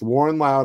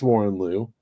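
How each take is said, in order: First: The surname is said as 'Lau'. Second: The surname is said as 'Liu'. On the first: This is the speaker's habitual in-head pronunciation. The speaker calls it wrong. "It's Warren Lau to me forever" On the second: This is the name's real pronunciation. The speaker calls it right. "I know it's Warren Liu"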